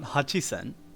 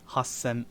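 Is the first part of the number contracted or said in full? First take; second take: full; contracted. First: The first part is said in full as hachi. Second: The first part is contracted into a doubled s. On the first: The speaker calls it wrong. "It's not it's not Hachisen" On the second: The speaker calls it right. "it's Hasen"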